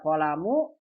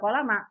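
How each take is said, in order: First: The word ends with the vowel u. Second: The word ends with the vowel a. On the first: "Ini bisa dibaca kolamu" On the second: "bisa kolama"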